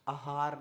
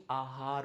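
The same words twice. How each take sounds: First: आहार with the first vowel cut to short a; common mispronunciation. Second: आहार with a long initial aa; correct pronunciation. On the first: Teacher showing the wrong form, आहार starting on short a. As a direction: say आहार as "a-haar". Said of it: "अगला आहार नहीं". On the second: Teacher correcting, आहार starting on long aa. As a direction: say आहार as "aa-haar", drawing out the opening. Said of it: "आहार होता है". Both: Shown as a demonstration.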